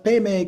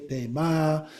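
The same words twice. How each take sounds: First: "peme" said pay-may; pronunciation option. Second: "pema" said pay-mah; alternative pronunciation. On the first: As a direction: end "peme" on an ay sound. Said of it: "could be pronounced peme". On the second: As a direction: end "pema" on an open ah. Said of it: "people pronounce it in slightly different ways". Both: Shown as a demonstration.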